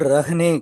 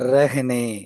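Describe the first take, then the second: First: The first vowel is a plain 'a' sound. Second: The first vowel is shaded toward an 'e' sound. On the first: The speaker calls it wrong. "இது வந்து ரஹ்னே கிடையாது" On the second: The speaker calls it right. "லேசா ஏ சவுண்ட சேர்த்துக்கணும்"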